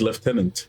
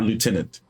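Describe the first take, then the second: First: The word is said with an f sound. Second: The word is said without an f sound. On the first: The speaker calls it right. "the original pronunciation is lieutenant" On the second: The speaker calls it wrong. "not lieutenant"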